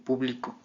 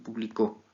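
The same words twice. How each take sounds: First: The stress is on the middle syllable. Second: The stress is on the last syllable. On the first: "En grave" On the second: "en aguda"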